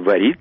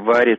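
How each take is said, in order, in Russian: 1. Ударение на втором слоге. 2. Ударение на первом слоге. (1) "Раньше говорили" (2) "а мы теперь говорим"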